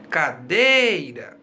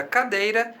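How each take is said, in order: First: "cadeira" called out slowly, stretched on DEI; affectionate calling. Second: Said in the usual way. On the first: Shown as a demonstration. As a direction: draw out the middle of "cadeira" as if calling it fondly. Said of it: "nós podemos chamá-la carinhosamente".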